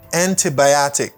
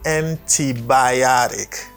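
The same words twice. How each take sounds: First: The middle T is a clear T sound. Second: The middle T sounds like a soft D. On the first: "et pour di tic" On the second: "Américains souvent prononcé T à D"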